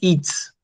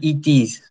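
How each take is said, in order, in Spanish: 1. Se dice como una sola palabra contraída. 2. Se dice como dos palabras completas. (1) "dicen its" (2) "ustedes no pronuncian it is"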